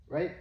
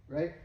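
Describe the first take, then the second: The two takes are said the same way.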